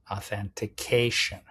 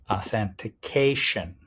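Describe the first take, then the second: Both takes have the same delivery.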